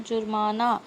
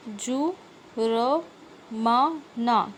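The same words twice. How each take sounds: First: Said in the usual way. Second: जु, र, मा, ना spelled out syllable by syllable, slowly; sounded out slowly. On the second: Shown as a demonstration. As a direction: break जुर्माना into its sounds, one at a time. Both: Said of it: "क्या दिया है बच्चों?".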